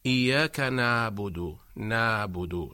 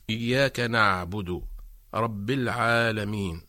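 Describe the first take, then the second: First: إياك نعبد with ع weak, close to an alif; ع in نعبد almost swallowed; wrong ain. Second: إياك نعبد with ع squeezed in the throat; slow, throaty ع in نعبد; نعبد with a clear pressed ع; correct ain. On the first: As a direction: slack نعبد, ع like a glottal stop. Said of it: "البعض ينطق العين هكذا". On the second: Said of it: "فنقول". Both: Shown as a demonstration.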